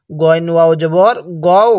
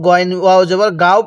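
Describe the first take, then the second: First: "গও" with a rounded o after the heavy g; correct rounded vowel. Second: "গাও" with an open aa after the g; wrong vowel. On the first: Teacher models the right reading, "গও" with rounded o. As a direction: spell it out, ending on "গও" as go-u, not gaa-o. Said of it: "কেউ গইন ওয়াও জবর গাও পড়ব না". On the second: Teacher warns learners off a misreading, "গাও" with open aa. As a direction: say "গাও" with a plain gaa-o, as a mistake. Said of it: "গাও পড়ব না". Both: Shown as a demonstration.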